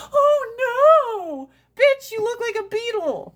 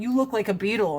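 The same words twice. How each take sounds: First: Much higher, louder, with a mock cry on oh no; mock dramatic. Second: Said in the usual way. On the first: Shown as a demonstration. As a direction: overdo the shocked friend. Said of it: "and going". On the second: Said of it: "you going".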